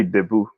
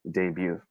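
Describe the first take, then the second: First: Debut as deh-boo; Filipino pronunciation. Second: Debut as day-byoo; proper pronunciation. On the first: Teacher showing how Filipinos say it, debut as deh-boo. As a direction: say "debut" with a short first vowel and plain boo. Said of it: "But we Filipinos say". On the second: Teacher correcting the Filipino version, debut as day-byoo. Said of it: "the proper way of saying it is". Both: Shown as a demonstration.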